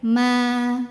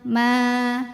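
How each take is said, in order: Both takes have the same delivery.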